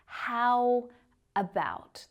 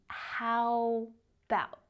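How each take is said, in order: First: The two words are said separately. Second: The words are squeezed into a shorter form. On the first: "So it's not how about" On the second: "reduce it even further"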